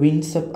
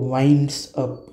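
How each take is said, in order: First: The vowel in 'winds' is a short 'i'. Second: The vowel in 'winds' is a long 'eye'. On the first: The speaker calls it wrong. "असा नाही उच्चार" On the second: The speaker calls it right. "याचा उच्चार होतो"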